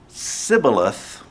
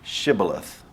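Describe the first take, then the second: First: The word begins with a plain s sound. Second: The word begins with an sh sound. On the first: The speaker is an Ephraimite. The speaker calls it wrong. "the S H sound did not exist" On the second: The speaker is not an Ephraimite. The speaker calls it right. "pronounce the town Shibboleth"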